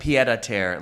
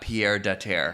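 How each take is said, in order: First: The first word sounds like 'pied'. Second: The first word sounds like 'Pierre'. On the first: The speaker calls it right. "it's also it's pied à terre" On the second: The speaker calls it wrong. "not Pierre de Terre"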